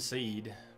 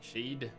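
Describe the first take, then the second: First: The word starts with a plain s sound. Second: The word starts with an sh sound.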